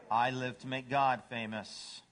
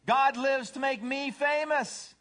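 First: Lightly voiced, understated devotion; humble dog. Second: High, loud, slow bragging; self-centered cat. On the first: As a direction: answer evenly, without any show. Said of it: "What's a dog say?". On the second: Acted. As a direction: announce it grandly, pitched way up. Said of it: "A cat says".

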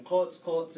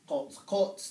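First: Kots kots said with the first kots stressed; first stress pattern. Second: Kots kots said with the second kots stressed and rising; contrasting stress. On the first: Teacher showing the meadowlark word, stress on the first kots. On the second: Teacher showing the word for bare land, stress on the second kots. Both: Shown as a demonstration. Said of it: "the differences are pretty big".

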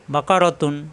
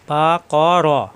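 First: Said in the usual way. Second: "বা ক র" drawn out very slowly, each syllable held. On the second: Shown as a demonstration. Teacher sounding out the word for learners, very slow separate syllables in "বা ক র". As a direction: stretch "বা ক র" so learners hear every vowel.

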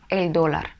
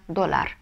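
First: Доллар stressed on the first syllable, DO-lar; Эль доллар with stress on DO; correct stress. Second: Доллар stressed on the last syllable, do-LAR; доллар the wrong way, stress on LAR. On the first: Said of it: "Ударение ставим". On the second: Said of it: "если не поставим, получится". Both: Shown as a demonstration.

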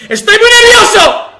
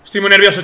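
First: High, loud burst of nerves; nervous outburst. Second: Said in the usual way. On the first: Real, not acted. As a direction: shout out the nerves.

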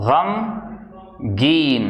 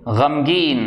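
First: गमगीन stretched out slowly, every sound held; slow drawn-out word. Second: Said in the usual way. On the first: Shown as a demonstration. Teacher slowly modelling गमगीन for students. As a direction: draw out गमगीन slowly for learners.

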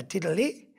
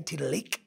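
First: "tiddali" with the final K softened away; soft final K. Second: "tiddalik" ending on a real hard K; hard final K. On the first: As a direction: let the end of "tiddali" go soft. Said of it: "it's more of a soft K". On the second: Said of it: "use it as a real hard K". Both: Shown as a demonstration.

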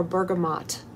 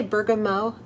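First: "bergamot" ending like "mot" in "motto", T sounded; sounded final T. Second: "bergamot" ending in an open OH, T left silent; silent final T. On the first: Host offering viewers the other pronunciation, "bergamot" with the T sounded. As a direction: say "bergamot" with its last syllable as AHT. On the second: Host asking viewers which pronunciation they use, "bergamot" with a silent T. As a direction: say "bergamot" French-style, rhyming its end with "go". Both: Shown as a demonstration. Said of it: "Do you say bergamot or bergamot".

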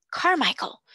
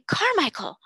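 First: Loud, higher cry of a name. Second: Second cry, louder and higher. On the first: Invalid crying out to his friend, loud and high. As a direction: call out the name loudly. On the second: Invalid crying out to his friend again, loud and high. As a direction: call the name again, loud and urgent. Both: Acted. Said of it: "cried out loudly".

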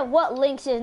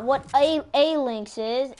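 First: Said in the usual way. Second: "a" singled out as "ay"; stress on A. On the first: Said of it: "you should have said". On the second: Shown as a demonstration. Correcting a teammate's wording, stress on "a". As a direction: lean on "a" as its own word, repeated. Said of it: "you should have said what lynx is".

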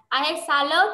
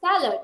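First: "I had salad" with "salad" rising up at the end. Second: "salad" dropping down at its end; falling end. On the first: Teacher shows the wrong rising end on "salad". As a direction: ask it, lifting "salad" up. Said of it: "không gọi là". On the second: Teacher shows the right falling "salad". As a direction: settle "salad" with a fall. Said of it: "mà phải là". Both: Shown as a demonstration.

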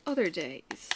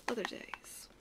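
First: Said in the usual way. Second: Wistful whisper. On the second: Real, not acted. Wistful repeat of a phrase.

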